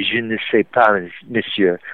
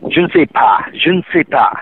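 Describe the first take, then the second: First: "Je ne sais pas, monsieur" with every single syllable pronounced; very Parisian "Je ne sais pas, monsieur", each syllable articulated; really Parisian French. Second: "Je ne sais pas" run together in casual Parisian French; everyday Parisian French. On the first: Showing co-host proper Parisian, every syllable of "Je ne sais pas, monsieur" pronounced. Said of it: "you pronounce every single syllable". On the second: Showing co-host Parisian French, "Je ne sais pas" said casually. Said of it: "in, in Parisian". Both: Shown as a demonstration.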